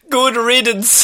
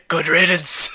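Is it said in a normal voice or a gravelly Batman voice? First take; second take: normal voice; Batman voice. First: It is said in his normal voice. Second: It is said in a gravelly Batman voice.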